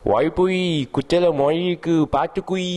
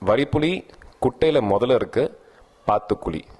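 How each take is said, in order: First: The line is slurred with a heavy Malayalam accent. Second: The line is spoken in clear, ordinary Tamil. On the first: "இந்த மாதிரி வந்துகிட்டு இருக்கும்" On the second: "இதுதான் அவங்க dialogue"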